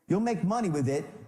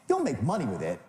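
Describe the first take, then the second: First: It is said in a plain, neutral tone. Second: It is said dismissively, as if obviously true.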